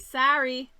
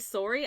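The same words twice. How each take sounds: First: It is said with an American accent. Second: It is said with a Canadian accent.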